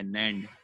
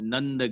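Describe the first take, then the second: First: The vowel sounds like the 'a' in 'cat'. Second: The vowel sounds like the 'u' in 'cut'. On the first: The speaker calls it right. "इसका जो word है वो नैंड है" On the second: The speaker calls it wrong. "आप नंद gate बोलेंगे"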